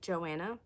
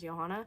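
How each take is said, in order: First: The name is said the English way. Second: The name is said the European way. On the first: The speaker calls it wrong. "like Joanna" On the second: The speaker calls it right. "pronounced the European way"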